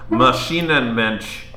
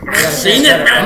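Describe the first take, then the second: First: It is said in a plain, neutral voice. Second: It is said in an angry German voice.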